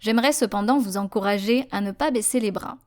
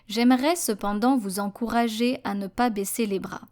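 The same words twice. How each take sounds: First: It is read at a normal everyday speed. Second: It is read slowly and deliberately. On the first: "I will be reading it at a normal pace uh, without slowing down" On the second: "slow French"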